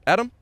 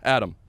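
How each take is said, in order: First: The voice rises at the end. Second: The voice falls at the end.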